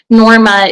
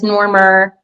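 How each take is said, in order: First: The name ends in a plain vowel, no r. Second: The name ends with an added r sound.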